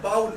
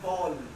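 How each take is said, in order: First: The vowel sounds like 'ow' in cow. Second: The vowel sounds like 'oh' in go. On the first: The speaker calls it wrong. "It's not बाउल" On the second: The speaker calls it right. "Is बॉल"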